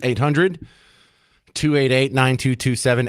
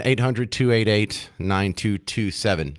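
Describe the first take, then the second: First: Said in the usual way. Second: Slow repeat. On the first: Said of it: "host gives call-in number". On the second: Shown as a demonstration. Host repeating the call-in number to listeners, slow and deliberate. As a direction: spell it out slowly so listeners catch it. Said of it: "host repeats call-in number".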